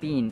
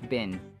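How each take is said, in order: First: The vowel is long, like in bean. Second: The vowel is short, like in bin. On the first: The speaker calls it wrong. "not bin as in mung bean" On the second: The speaker calls it right. "It's bin as in trash bin"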